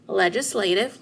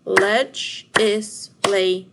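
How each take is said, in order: First: Said in the usual way. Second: "Legislative" in four loud, slow, separate beats; split into syllables. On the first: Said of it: "what word?". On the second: Shown as a demonstration. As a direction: punch out each syllable of "Legislative": le, gis, la, tive. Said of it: "split the word legislative into syllables".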